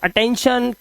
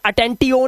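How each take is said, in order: First: The ending is said as shun. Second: The ending is said as tee-yon. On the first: The speaker calls it right. "ट आ जाएगा और ये शन बन जाता है" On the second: The speaker calls it wrong. "ये अटेंटियोन नहीं करना है"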